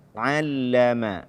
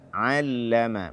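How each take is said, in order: Both takes have the same delivery.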